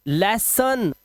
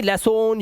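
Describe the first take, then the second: First: लेसन ending in "-sun"; correct pronunciation. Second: लेसन ending in a long "-sone"; wrong pronunciation. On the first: Teacher modelling the rule, लेसन ending in "-an". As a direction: say लेसन with a short schwa. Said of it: "अन, ओन नहीं". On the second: Teacher showing what to avoid, लेसन with o. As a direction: say लेसन as "le-soan". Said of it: "ओ नहीं करना है". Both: Shown as a demonstration.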